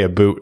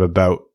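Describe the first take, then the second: First: "a boot" with an oo vowel; Canadian "a boot". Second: Said in the usual way. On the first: Shown as a demonstration. Host demonstrating the Canadian about, vowel as oo. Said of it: "we say a boot instead of about". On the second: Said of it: "instead of about".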